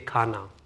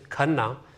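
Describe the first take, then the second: First: The name is said with an American pronunciation. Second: The name is said with its native pronunciation. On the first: This sounds like the word for food. "Americans say Khana" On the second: This is the family name as it really is. "my last name is Khanna"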